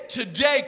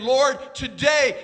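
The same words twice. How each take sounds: First: Today shouted with a rise. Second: Today drawn out slowly and loud; slow stress on today. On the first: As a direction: cry out "today" with a lift. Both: Acted.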